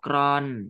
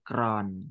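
First: The syllable is said with a falling tone. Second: The syllable is said with a low tone. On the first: "ไม้โท" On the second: "ไม้เอก"

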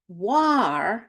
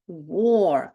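First: The vowel is an open 'ar' sound, as in car. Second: The vowel is a rounded 'or' sound, as in or. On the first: The speaker calls it wrong. "Замість war" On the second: The speaker calls it right. "ми читаємо war, тобто ніби ми бачимо ось такі літери OR"

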